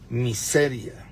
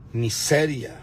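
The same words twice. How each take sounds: The two takes are said the same way.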